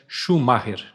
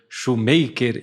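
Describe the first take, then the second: First: The name is said with German-like sounds. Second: The name sounds like English 'shoemaker'. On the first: "a pronúncia mais parecida, mais semelhante é" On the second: "alguns falam"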